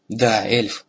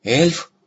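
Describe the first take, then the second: First: Said in the usual way. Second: ЭЛЬФ raised high with rising questioning tune; astonished question. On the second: A narrator's reading. Dragon seeing the rescued girl, astonished question. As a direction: ask in surprise, voice lifting on the word. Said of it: "зашипела от изумления".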